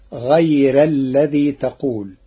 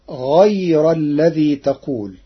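First: غير with a light, thin ر. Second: Said in the usual way. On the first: Shown as a demonstration. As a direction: soften the ر in غير. (غير بترقيق الراء) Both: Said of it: "قرأ ورش كلمة غير بترقيق الراء".

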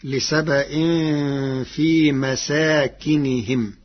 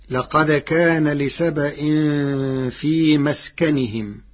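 First: مساكنهم said masākinihim, with fatha on the sin, a long alif and kasra on the kaf; مساكنهم read slowly in Warsh's way. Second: مسكنهم recited as maskanihim, the common reading; recited citation. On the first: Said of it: "فتصير". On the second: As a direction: read out مسكنهم with sukun on the sin and no alif. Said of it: "قرأ ورش كلمة مسكنهم". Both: Shown as a demonstration.

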